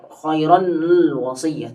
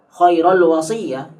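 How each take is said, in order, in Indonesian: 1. Akhiran nun tetap dipisah sebelum al. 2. Akhiran nun dihilangkan sepenuhnya. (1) "tidak tidak bisa seperti itu" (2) "itu nanti bingung"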